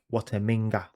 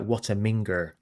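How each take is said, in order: First: The last word ends in an open 'ah' sound. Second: The last word ends in an 'er' sound.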